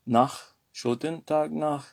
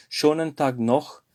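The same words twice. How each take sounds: First: "nach" said with an open a vowel, not "noch"; schönen Tag "nach", the a sound by mistake; mistaken nach. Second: "noch" said with a rounded o vowel; schönen Tag "noch", clear o sound; corrected noch. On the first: Teacher slips to students, saying "nach" with an a. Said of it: "c'est pas nach". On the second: Teacher correcting the slip for students, careful "noch" with an o. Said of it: "mais schönen Tag noch". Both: Shown as a demonstration.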